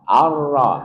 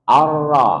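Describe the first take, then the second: The two takes are said the same way.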